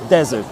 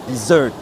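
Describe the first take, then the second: First: The stress is on the first syllable. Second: The stress is on the second syllable. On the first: It means a dry, sandy region. "Première syllabe pour le ... désert" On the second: It means a sweet course after a meal. "c'est la deuxième syllabe qui prend"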